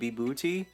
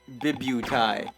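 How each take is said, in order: First: The word ends with an 'ee' sound. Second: The word ends with an 'eye' sound.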